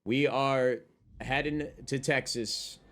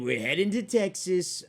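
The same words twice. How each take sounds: First: Said in the usual way. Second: Southern accent. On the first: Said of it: "I said we're heading to Texas". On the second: Shown as a demonstration. Telling chat they're moving, in a southern accent. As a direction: play a Texan cowboy announcing the move. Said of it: "I'm working on my southern accent".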